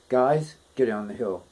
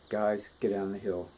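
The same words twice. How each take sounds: First: The pitch key shifts between the words. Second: The whole phrase stays in one pitch key. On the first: "he's speaking those words in two different keys" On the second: "instead of like"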